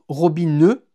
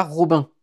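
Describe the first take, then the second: First: Robineux with the final n sounded and a trailing schwa. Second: Robin with a French nasal ending, the wrong way. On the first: Narrator correcting listeners: Robineux, end voiced. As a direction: say Robineux, nasal-free, ending in eu. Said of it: "Ça se prononce Robineux". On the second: Narrator showing the wrong Robin, nasal end. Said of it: "pas Robin". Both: Shown as a demonstration.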